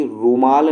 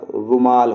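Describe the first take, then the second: First: रुमाल with a stretched "rooo" at the start; long U. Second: रुमाल with a quick "ru" before the long "maal"; short U. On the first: Teacher showing the wrong form, long U in रुमाल. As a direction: draw out the U in रुमाल. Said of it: "रुमाल नहीं होता". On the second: Teacher giving the correct form, short U in रुमाल. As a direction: keep the U in रुमाल brief. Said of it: "रुमाल होता है". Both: Shown as a demonstration.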